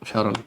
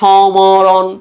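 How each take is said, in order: First: The word is said without any 'm' sound. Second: The word is said with a clear 'm' sound. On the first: The speaker calls it right. "শব্দের শুরুতে মফলা উচ্চারিত হয় না" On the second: The speaker calls it wrong. "তুমি কি বলো সমরণ? No"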